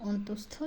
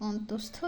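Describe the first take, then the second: Both takes have the same delivery.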